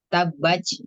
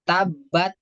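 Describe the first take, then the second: First: The final t is released with heavy, ch-like breath. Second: The final t is released with no breath at all. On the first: "jadi bukan ta tapi ca" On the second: "Kalau tabat kan dia tidak mengeluarkan nafas"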